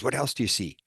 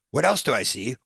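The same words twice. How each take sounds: First: Said in the usual way. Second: Higher-pitched, indignant echo of a question; loathing. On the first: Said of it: "Michael Newton says". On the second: Retold or imitated. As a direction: throw the question back in acted disgust. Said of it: "with loathing".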